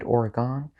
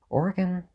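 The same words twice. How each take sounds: First: Oregon ending in a full "gone"; mocked mispronunciation. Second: Oregon with a reduced last syllable, OR-gun; correct pronunciation. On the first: Ranker mocking wrong speakers, Oregon said OR-uh-GONE. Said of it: "or if you're stupid". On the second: Ranker naming the state properly, Oregon said OR-gun. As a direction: say "Oregon" as OR-gun, ending unstressed. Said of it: "If you say Oregon, you're just wrong". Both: Shown as a demonstration.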